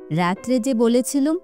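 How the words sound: It is said in a mocking, mimicking voice.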